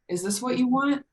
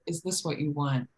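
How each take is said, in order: First: The voice rises at the end. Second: The voice falls at the end. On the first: It asks a real question. "it's a question because I inflected my voice" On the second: It states a realization, not a question. "It's maybe more of like, I'm realizing this is what you want"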